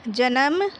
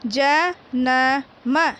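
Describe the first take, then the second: First: Said in the usual way. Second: जन्म split into ज-न-म, very slow; letter by letter. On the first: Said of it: "फिर साथ में पढ़ना है". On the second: Shown as a demonstration. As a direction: stretch जन्म out syllable by syllable. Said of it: "पहले एक एक वर्ण को पढ़ना है".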